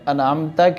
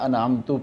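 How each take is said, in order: First: The word ends with an 'a' vowel. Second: The word ends with a 'u' vowel. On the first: The speaker calls it right. "ता के ऊपर ज़बर है" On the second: The speaker calls it wrong. "पेश लगा कर पढ़ेंगे"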